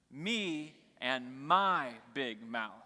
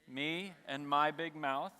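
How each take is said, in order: First: Extra stress falls on me and my. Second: It is said without special stress on me and my.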